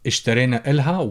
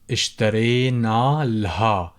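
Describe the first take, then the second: First: The vowel before 'l' is kept. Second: The vowel before 'l' is dropped.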